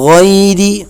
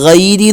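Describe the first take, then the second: First: The first sound is full and heavy. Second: The first sound is light and thin. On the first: The speaker calls it right. "വായ നിറയെ ശബ്ദം കൊടുത്ത്" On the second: The speaker calls it wrong. "ഗൈരി ഗൈരി എന്ന് ചിലരൊക്കെ പറയുന്നത് കേൾക്കാറുണ്ട്"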